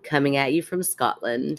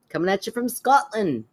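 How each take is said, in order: First: It is said in her normal accent. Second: It is said in a put-on Scottish accent.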